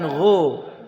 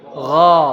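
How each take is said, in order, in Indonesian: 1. Vokalnya membulat seperti o. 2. Vokalnya terbuka seperti a. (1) "Kalau dibaca gho itu berarti dhammah. Bukan gho"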